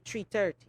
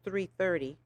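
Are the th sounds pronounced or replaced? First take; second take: replaced; pronounced. First: The th sounds are replaced by another sound. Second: The th sounds are clearly pronounced. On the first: "I used to say three thirty" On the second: "now did you hear those three H's? They're beautiful"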